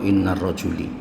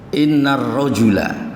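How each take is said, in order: First: The last word ends in an "i" vowel. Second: The last word ends in an "a" vowel. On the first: The speaker calls it wrong. "tidak boleh dibaca" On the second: The speaker calls it right. "innar rojula seperti innallaha"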